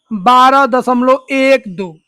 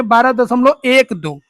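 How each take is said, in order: First: Slow reading demo. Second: Said in the usual way. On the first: Shown as a demonstration. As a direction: slowly spell out बारह दशमलव एक दो, digit by digit. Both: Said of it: "इसको क्या पढ़ेंगे?".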